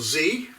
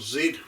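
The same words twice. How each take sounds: First: It is said the American way, 'zee'. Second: It is said the British way, 'zed'.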